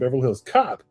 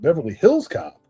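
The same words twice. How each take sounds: First: The word Hills is not stressed. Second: The word Hills carries heavy stress. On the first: The speaker calls it right. "I can understand Beverly Hills Cop" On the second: The speaker calls it wrong. "weird stress on the second word"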